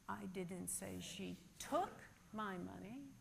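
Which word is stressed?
took. The stress falls on the word took. She may have borrowed it instead. "but perhaps she borrowed it"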